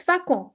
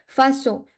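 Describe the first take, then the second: First: "facon" with a k sound in the middle; hard c error. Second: "Façon" with an s sound for the ç; soft c. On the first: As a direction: mispronounce façon as "facon", c as k. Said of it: "cédille, it's facon". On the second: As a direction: say French "Façon" with s in the middle. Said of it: "if we do not add c'est, cédille". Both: Shown as a demonstration.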